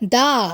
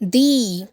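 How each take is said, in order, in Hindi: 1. इस स्वर में छोटी 'uh' ध्वनि है। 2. इस स्वर में लंबी 'ee' ध्वनि है। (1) "आप उसे दा ही पढ़ेंगे" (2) "प्रोनाउंसिएशन दा नहीं दी होगा"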